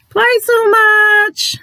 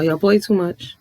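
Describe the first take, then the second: First: Very high, loud, drawn-out mock cry; exaggerated squeal. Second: Said in the usual way. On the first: Vlogger teasing viewers who play too much, exaggerated high squeal. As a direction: stretch it out high and loud for comic effect. Playful repeat, exaggerated for emphasis.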